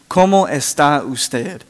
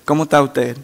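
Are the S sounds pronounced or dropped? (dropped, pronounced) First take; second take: pronounced; dropped. First: The S sounds are clearly pronounced. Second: The S sounds are dropped from the words. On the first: "instead of saying" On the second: "they do not use their S's"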